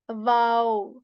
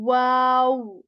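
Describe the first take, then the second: First: It starts with a v sound. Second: It starts with a rounded w sound. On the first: The speaker calls it wrong. "you should not be saying wow, starting with V and ending on O" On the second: The speaker calls it right. "You should be making your lips round and say wa"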